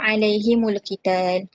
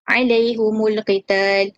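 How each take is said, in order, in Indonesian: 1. Huruf ha memakai i dan huruf mim memakai u. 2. Huruf ha dan mim sama-sama memakai vokal u. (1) "membariskan huruf ha uh, dengan baris bawah dan uh, mim dengan baris hadapan" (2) "membariskan baris hadapan pada huruf ha dan juga mim"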